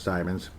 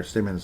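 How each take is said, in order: First: "Simons" with a long i, as in "time"; first syllable of "Simons" rhymes with "time"; alternative name pronunciation. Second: "Simmons" with a short i, as in "him"; first syllable of "Simmons" rhymes with "him"; alternative name pronunciation. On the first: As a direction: say "Simons" as SIGH-munz. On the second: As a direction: say "Simmons" as SIM-unz. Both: Shown as a demonstration. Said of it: "whatever the heck you say".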